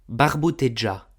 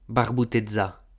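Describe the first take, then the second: First: The middle consonant is a j sound. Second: The middle consonant is a z sound. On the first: This is the Maritime Provençal form. "En maritime si disum ... j" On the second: This is the Rhodanian Provençal form. "en rudanês si disum puleu ... z"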